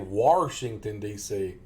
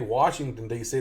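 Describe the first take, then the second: First: Washington is said with an extra R added. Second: Washington is said with no added R sound. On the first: "they say ... overpronounce their R's and add extra R's" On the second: "a lot of these people don't say"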